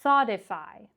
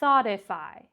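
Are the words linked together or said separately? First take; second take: linked; linked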